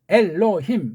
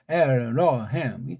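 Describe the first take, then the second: First: The word is said with clear, separate syllables. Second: The word is said with a curled, slurred tongue. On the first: The speaker calls it right. "우린 이렇게 돼요" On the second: The speaker calls it wrong. "혀가 꼬부라져요. 술 먹은 사람처럼"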